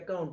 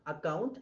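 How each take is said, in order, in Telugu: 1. మొదటి అచ్చు చిన్నగా, బలహీనంగా 'uh' లా ఉంటుంది. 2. మొదటి అచ్చు తెరిచి, పూర్తిగా 'ah' లా ఉంటుంది. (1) "ఇలా అనకూడదు" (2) "ఆ ఆ ఆ అని చెప్పాలి"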